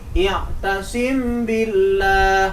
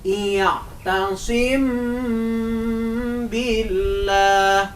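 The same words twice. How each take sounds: First: The m is short without a nasal hum. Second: The m is held with a nasal hum. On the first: The speaker calls it wrong. "Kalau dibaca begini, ... Benar apa salah?" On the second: The speaker calls it right. "cara membacanya harus dengung dan bagus tadi, seperti tadi"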